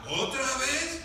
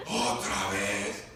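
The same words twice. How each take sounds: First: Carcelero preguntando. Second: Very low, drawn-out grumble; carcelero ya no amable. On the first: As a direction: ask it with the pitch climbing to the end. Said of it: "el carcelero ya no le decía". (pregunta del carcelero, tono ascendente) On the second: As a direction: drag it out deep as an annoyed jailer. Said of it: "ya no era tan amable". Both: Acted.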